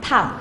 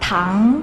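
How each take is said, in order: First: It is said with a falling tone. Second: It is said with a rising tone.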